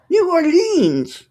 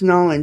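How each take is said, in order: First: The name is said in full. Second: The name is squeezed into two syllables. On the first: The speaker is from out of town. The speaker calls it wrong. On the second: The speaker is a local. The speaker calls it right.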